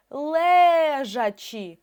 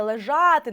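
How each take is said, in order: First: ЛЕЖАЧІ very slow, first Е held long; наголос на Е. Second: ЛЕЖАТИ with a louder, longer А; наголос на А. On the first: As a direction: stretch ЛЕ in ЛЕЖАЧІ. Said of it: "літера Е перевіряюча". (ЛЕЖАЧІ з дуже протяжним наголошеним Е) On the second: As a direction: hit the middle vowel of ЛЕЖАТИ. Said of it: "наголос на А". (ЛЕЖАТИ з виразним наголошеним А) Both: Shown as a demonstration.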